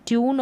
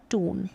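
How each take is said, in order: First: ट्यून as "tyoon"; yoo pronunciation. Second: टून as "toon"; no y-sound in टून; oo pronunciation. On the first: Teacher recapping two ways, ट्यून with "yoo". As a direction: keep the y-glide in ट्यून. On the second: Teacher recapping two ways, टून with plain "oo". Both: Shown as a demonstration. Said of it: "दोनों तरीके से".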